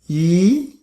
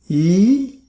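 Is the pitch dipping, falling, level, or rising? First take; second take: rising; rising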